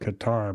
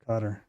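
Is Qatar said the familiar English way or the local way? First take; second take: familiar English; local. First: Qatar is said the familiar English way. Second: Qatar is said the way locals say it. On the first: This is how the speaker used to say it. The speaker calls it wrong. "I used to call it Qatar" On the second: This is how the people there say it. The speaker calls it right. "I guess is the correct pronunciation"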